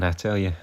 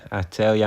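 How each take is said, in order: First: I TELL you, tell stressed with a falling close. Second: Weight on you, I tell YOU; I tell YOU, emphasis shifted to the last word; stress on YOU. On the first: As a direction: TELL pushed out, falling at the end. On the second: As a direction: land the phrase on you instead of tell. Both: Shown as a demonstration.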